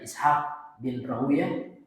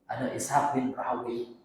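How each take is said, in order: First: The name ends with a 'yah' sound. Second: The name ends with a 'wee' sound. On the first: "Ada yang mengatakan Rahuyah" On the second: "membaca ada Rahawi, ada dua cara bacanya"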